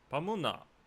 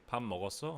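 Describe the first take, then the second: First: It is said in the Busan dialect accent. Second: It is said in the standard Seoul accent.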